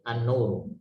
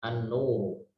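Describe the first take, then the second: No difference in how they are said.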